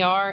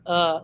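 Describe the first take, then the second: First: The ending is said with an R sound. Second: The ending is said without an R sound. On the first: "Instead of saying the er" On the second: "it says uh"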